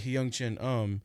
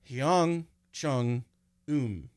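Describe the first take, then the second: First: The middle syllable sounds like 'chen'. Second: The middle syllable sounds like 'chung'. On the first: This is the usual reading of the name. "it wouldn't be Hyung Chen Um" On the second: This is how the name would be read in Taiwanese. "if you wanted to pronounce it in Taiwanese"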